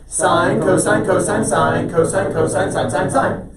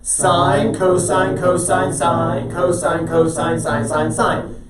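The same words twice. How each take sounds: First: The words are recited somewhat quickly. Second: The words are recited slowly.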